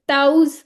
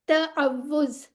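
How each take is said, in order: First: The middle w sound is left out. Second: A doubled w sound is heard in the middle. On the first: The speaker calls it wrong. "हम बचपन से इसे क्या पढ़ते होते थे? ताउज पढ़ते होते थे" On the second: The speaker calls it right. "तो असल में ये क्या है? ... ये वाव जो है वो टू टाइम्स आ रही है"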